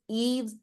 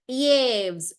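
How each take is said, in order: First: The vowel is a clear 'ee' sound. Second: The vowel is not a clear 'ee' sound. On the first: The speaker calls it right. "the E sound is pronounced as E" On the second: The speaker calls it wrong. "I would say Yves, but it's not Yves"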